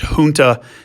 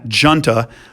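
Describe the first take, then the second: First: The word begins with an H sound. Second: The word begins with a J sound. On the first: The speaker calls it right. "word's pronounced junta ... it has the H sound like a Spanish word" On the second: The speaker calls it wrong. "and not junta"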